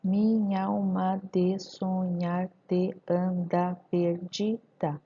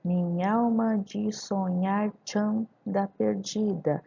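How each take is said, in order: First: "te anda" kept apart as te-an-da, full vowels; slow syllable-by-syllable "Minha alma de sonhar te anda perdida"; grammatical syllables. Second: "te anda" merged as "tchanda", "de" as "dji"; slow and linked, "minha alma" as "minhalma"; elided recital. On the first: Teacher dividing grammatical syllables, slow with "te anda" unlinked. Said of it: "em sílabas gramaticais". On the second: Teacher reciting for scansion, "te anda" run into tchanda. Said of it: "Então, tchan". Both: Shown as a demonstration.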